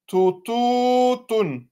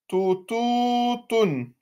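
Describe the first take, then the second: No difference in how they are said.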